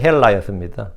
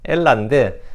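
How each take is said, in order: First: The word starts with an h sound. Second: The word starts directly with a vowel. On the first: This is the classical Greek pronunciation. "고전 그리스에서는 발음이 헬라였습니다" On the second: This is the modern Greek pronunciation. "지금은 헬라가 아니고 엘라예요"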